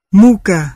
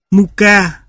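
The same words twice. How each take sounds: First: "muka" with MU hit hard and ka left light; first-syllable stress. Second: "muka" with the stress moved onto KA; second-syllable stress. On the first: Lecturer giving the Russian word for suffering, first-syllable stress on "muka". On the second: Lecturer giving the Russian word for flour, final-syllable stress on "muka". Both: Shown as a demonstration. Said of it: "khi thay đổi vị trí của trọng âm".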